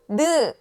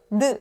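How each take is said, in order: First: The syllable is drawn out long. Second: The syllable is clipped very short. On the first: The speaker calls it wrong. "이렇게 길게 이야기하는" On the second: The speaker calls it right. "이런 식으로 끊어서"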